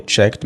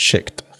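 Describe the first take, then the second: First: "checked" as one syllable, open e and final kt; correct "checked" pronunciation. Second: "checked" with a closer, tighter vowel; mispronounced "checked". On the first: Teacher shows how it is pronounced, "checked" in one open-vowelled syllable. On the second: Teacher points out what to avoid, "checked" with a narrowed vowel. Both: Shown as a demonstration. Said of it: "وخلي بالك من نطقها".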